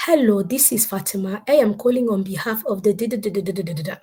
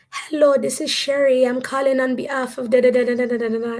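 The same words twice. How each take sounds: First: Put-on African accent at the speaker's own pitch. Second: Put-on higher-pitched, lilting Caribbean accent. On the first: Survey caller Fatima introducing herself on the phone, African accent. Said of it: "Then I did my African accent". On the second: Survey caller Sherry introducing herself on the phone, Caribbean accent. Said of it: "do my Caribbean accent".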